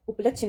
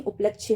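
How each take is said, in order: First: उपलक्ष्य cut short at the chh; wrong pronunciation. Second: उपलक्ष्य with a final y glide; correct pronunciation. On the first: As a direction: say उपलक्ष्य as up-lachh. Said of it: "उपलक्ष्य नहीं". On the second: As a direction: say उपलक्ष्य as up-lachh-ye. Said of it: "उपलक्ष्य होता है". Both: Shown as a demonstration.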